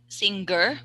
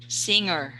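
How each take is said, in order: First: A hard g sound follows the ng. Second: No hard g sound follows the ng. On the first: The speaker calls it wrong. "don't say sing singer" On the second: The speaker calls it right. "no g sound. ... but say singer"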